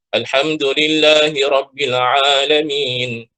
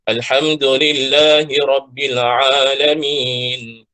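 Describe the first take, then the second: First: It is recited at a faster pace. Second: It is recited at a slower pace. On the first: "Ini lebih laju daripada tadwir" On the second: "bacaan tadwir"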